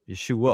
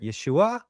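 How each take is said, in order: First: The name ends in a plain, unnasal 'uh' sound. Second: The name ends with the pitch going higher. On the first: "we just say Yeshua with the uh" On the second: "or they might even go higher"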